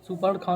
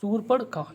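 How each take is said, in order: First: "सुपर्ण खा" with short su and an a after p; wrong form. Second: "शूर्पण खा" with long ū and r before p; higher, stretched शूर् opening "शूर्पण खा"; correct form. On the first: Teacher quoting the mistake, short first vowel. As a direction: say "सुपर्ण खा" as सु-पर-णखा. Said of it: "सुपर्ण खा नहीं होता". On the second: Teacher correcting students, careful higher-pitched syllables. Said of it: "ये होता है शूर्प". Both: Shown as a demonstration.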